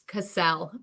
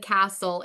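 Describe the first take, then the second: First: It is said unlike the ordinary word castle. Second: It sounds like the ordinary word castle. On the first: The speaker calls it right. "It's Cassell" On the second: The speaker calls it wrong. "I don't live in a castle"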